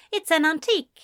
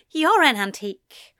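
First: Said in the usual way. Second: "You're" hit higher and louder; retort. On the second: A narrator's reading. Eliza retorting to her brother, stress on "You're". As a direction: throw it back with punch on "You're". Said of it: "Eliza retorted".

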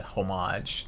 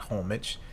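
First: Homage as "oh-MAHZH", stress on the second syllable; French-style pronunciation. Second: Homage as "HOM-ij", stress on the first syllable; wrong pronunciation. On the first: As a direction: say homage with a long AH and soft final consonant. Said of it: "how to properly pronounce that". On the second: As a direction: say homage with a short, weak ending like "midge". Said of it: "not homage". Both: Shown as a demonstration.

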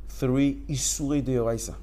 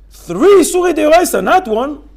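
First: Said in the usual way. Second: High, loud outcry; loud emphatic. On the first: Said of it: "repeated for emphasis". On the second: Shown as a demonstration. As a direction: hammer home the count. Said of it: "repeats with force".

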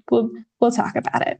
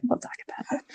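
First: Said in the usual way. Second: Teasing whisper. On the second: Acted. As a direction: whisper it like a secret.

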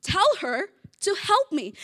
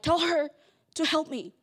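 First: Blunt order to the Lord, high and loud; tell, don't ask; a stressed sister's command; demanding. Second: Mildly snippy order; a hint of curt demand; a touch of tone. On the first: Retold or imitated. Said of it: "She's saying". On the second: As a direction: sister with an edge in her voice. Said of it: "there's a little bit of a tone".

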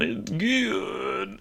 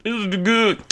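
First: Breathy, much softer, drawn out; almost whisper it like tasting something delicious; savoring. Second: Said in the usual way. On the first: Pretend. Savoring the steak.

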